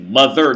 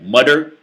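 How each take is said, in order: First: The TH is said as a th sound. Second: The TH is said like a d sound. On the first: "that's an American pronunciation of the T H" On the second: "like th versus duh"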